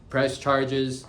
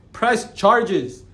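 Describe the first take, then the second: First: Said in the usual way. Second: High, loud, insistent mock yell; angry demand. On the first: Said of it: "repeated calmly after the shout". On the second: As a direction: bark the order at the detective. Retold reply to the detective.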